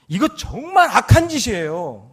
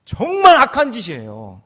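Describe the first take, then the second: First: 정말 punched loud and slow; stress on 정말. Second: 정말 louder still, slow; stress on 정말. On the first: Pastor condemning Shimei, 정말 stressed. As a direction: hit 정말 hard. First take, emphasis. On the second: Pastor repeating to church, stronger 정말. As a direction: drive 정말 home harder. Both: Real, not acted.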